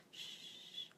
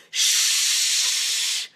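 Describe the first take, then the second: First: Tiny quiet shush, barely heard; the wrong gentle shush; weak quiet shush; soft shh. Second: Long loud shh, straight into the ear; loud shush right into the ear. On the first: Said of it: "don't do the shh". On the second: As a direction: shush like an angry librarian. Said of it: "really loud, shushing, angry librarian type sound". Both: Shown as a demonstration.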